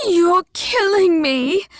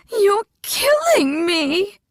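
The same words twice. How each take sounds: First: Higher, louder panicked wail, killing rising; frantic shout, killing stressed; panicked cry. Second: Slower, louder sobbing shout, killing rising; desperate crying yell. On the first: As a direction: beg for your life. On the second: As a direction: wail it through tears. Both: A narrator's reading. Old woman being choked.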